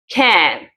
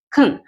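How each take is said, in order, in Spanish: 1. La palabra tiene una vocal plena y clara. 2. La vocal se reduce a un schwa rápido. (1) "Cuando yo quiero resaltar la palabra dentro del enunciado, ahí voy a pronunciarlo can" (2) "la pronunciación es muy rápida y es muy corta"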